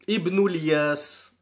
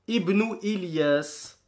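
First: Ilyas runs into the previous word with no stop. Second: A glottal stop comes before Ilyas. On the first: "on ne prononce pas le hamza justement" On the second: "on s'arrête sur la hamza"

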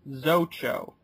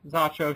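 First: The first vowel is a hard 'oh' sound. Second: The first vowel is an 'ah' sound. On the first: The speaker calls it right. "should be pronounced Zocho" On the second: The speaker calls it wrong. "Why we decided to mispronounce it"

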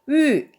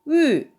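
The two takes are said the same way.

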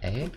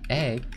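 First: The voice rises at the end. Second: The voice falls at the end.

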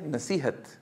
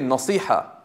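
First: It is said softly, ending with a t. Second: It is said heavily, with no final t. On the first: This is the Urdu form of the word. "pronounce it more softly and add a ta at the end" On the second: This is the Arabic form of the word. "in Arabic they say nasiha, right? But that's heavy"

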